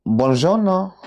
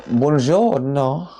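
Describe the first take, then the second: First: Higher, brighter "Buongiorno" in an Italian lilt; a put-on Italian "Buongiorno"; Italian greeting. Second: Slow, drawn-out Italian "Buongiorno"; Italian "Buongiorno" stretched out; Italian greeting. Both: Shown as a demonstration. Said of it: "I'm not bilingual".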